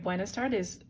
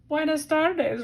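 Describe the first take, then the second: First: It is said in the speaker's normal voice. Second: It is said in a put-on character voice.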